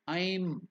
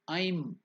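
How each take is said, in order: First: The vowel sounds like the English word I'm. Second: The vowel sounds like the English word I'm.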